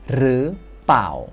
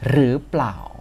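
First: It starts with r and the l is dropped. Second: It starts with r and keeps the pl cluster. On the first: "loling dalam plau itu tidak diucapkan, jadinya pau doang" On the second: "kita mulai dari cara bacanya"

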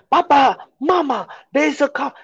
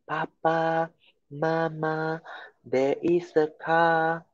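First: The phrase is said loudly with a raised voice. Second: The phrase is said quietly and softly. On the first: The speaker calls it right. "the wisdom, is that to raise your voice" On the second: The speaker calls it wrong. "If you were to say like that, do you think your parents will hear it?"

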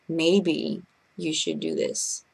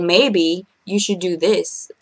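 First: The tone is soft and kindly suggesting. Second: The tone is pushy and talking down. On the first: The speaker is offering a kind suggestion. The speaker calls it right. "you suggesting is so much better" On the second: The speaker is telling someone what to do. The speaker calls it wrong.

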